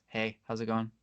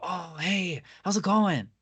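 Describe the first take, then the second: First: The greeting sounds flat and unenthusiastic. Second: The greeting sounds warm and excited.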